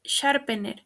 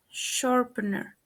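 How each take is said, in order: First: "sharpener" as shar-peh-NEH; "sharpener" read as spelt, final r weak; mispronounced. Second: "sharpener" as SHOR-pən-ər; "sharpener" with reduced middle vowel; correct pronunciation. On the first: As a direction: say "sharpener" with full e vowels. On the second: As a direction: say "sharpener" with schwas and final r. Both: Shown as a demonstration. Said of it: "The correct pronunciation is".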